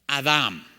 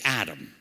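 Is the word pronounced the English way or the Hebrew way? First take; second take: Hebrew; English. First: It is said with a Hebrew pronunciation. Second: It is said with an English pronunciation. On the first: "If you're reading Hebrew, it just says Adam" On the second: "which we say Adam"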